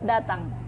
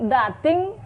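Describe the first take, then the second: First: The last vowel sounds like 'a'. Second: The last vowel sounds like 'e'. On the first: The speaker calls it right. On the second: The speaker calls it wrong.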